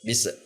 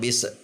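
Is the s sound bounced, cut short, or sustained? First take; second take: bounced; bounced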